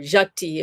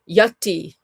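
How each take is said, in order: First: It is said with a Bengali pronunciation. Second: It is said without a Bengali pronunciation.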